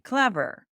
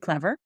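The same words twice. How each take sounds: First: The pitch falls on the word. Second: The pitch rises on the word. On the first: It is a firm statement. "we're not raising the pitch... we speak in a very assertive manner" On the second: It is a question. "your sentence is a question, and you finish with that word"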